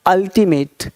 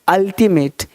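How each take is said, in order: Both takes have the same delivery.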